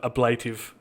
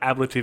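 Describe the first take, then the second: First: The first syllable does not sound like 'abbey'. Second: The first syllable sounds like 'abbey'. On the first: The speaker calls it wrong. "instead of ablative" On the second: The speaker calls it right. "I'm trying to make myself say ablative"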